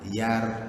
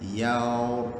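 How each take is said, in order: First: The syllable is light, with a thin r. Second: The syllable is heavy, with a thick r. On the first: The speaker calls it wrong. "kalau yang salah tu Y A R" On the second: The speaker calls it right. "yang betulnya tu Y A O R, yaur. Yaur, tebal eh"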